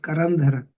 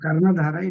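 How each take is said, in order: First: The name is said as Karandhara. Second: The name is said as Karnadhara. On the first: The speaker calls it right. "It is Karandhara" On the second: The speaker calls it wrong. "It's not"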